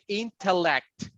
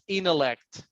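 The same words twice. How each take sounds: First: The T after the N is clearly pronounced. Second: The T after the N is dropped. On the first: The speaker calls it wrong. "I don't say intellect" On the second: The speaker calls it right. "it's intellect"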